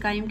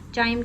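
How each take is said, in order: First: The word begins with a 'k' sound. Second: The word begins with a 'ch' sound. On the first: "काइम कह लें" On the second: "चाइम कह लें"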